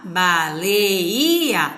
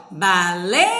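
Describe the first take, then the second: First: "baleia" split slowly into ba, le, i, a; syllables separated. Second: "baleia" with LEI held long as one syllable; read joined. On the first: Teacher separating syllables on the board, "baleia" broken into pieces. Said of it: "A gente vai separar as sílabas". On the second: Teacher showing how we read it, "baleia" with a long unbroken LEI. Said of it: "mas a gente vai ler". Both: Shown as a demonstration.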